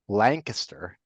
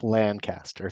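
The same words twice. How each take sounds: First: The first syllable sounds like 'lang'. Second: The first syllable sounds like plain 'lan'. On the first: The speaker calls it right. "Lang Lancaster" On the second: The speaker calls it wrong. "not Lancaster"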